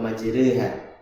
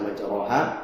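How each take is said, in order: First: The vowel after r is between a and e. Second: The vowel after r is a plain a. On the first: "dengan taklil" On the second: "bukan dibaca majroha"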